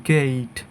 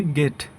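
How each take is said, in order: First: গেইট with a long ei glide; correct pronunciation. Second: গেট with a short pure e; wrong pronunciation. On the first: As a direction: say গেইট as "geit", e sliding into i. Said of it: "সঠিক উচ্চারণ হবে". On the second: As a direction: say গেট as "get", no glide. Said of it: "এটা হচ্ছে আমাদের ভুল উচ্চারণ". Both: Shown as a demonstration.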